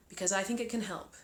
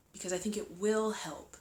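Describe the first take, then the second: First: Said in the usual way. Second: "will" leaned on with firm emphasis; stress on "will". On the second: Real, not acted. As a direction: land on "will" as a firm correction. Restates can help as will help.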